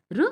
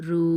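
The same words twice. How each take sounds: First: రు said short and quick; short vowel. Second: రు stretched on the vowel; long vowel. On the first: Teacher contrasts two letters for children, short vowel. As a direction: keep the u of రు brief. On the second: Teacher contrasts two letters for children, long vowel. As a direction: draw out the u of రు. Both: Shown as a demonstration. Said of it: "దీన్ని కొంచెం దీర్ఘంగా పలకాలి".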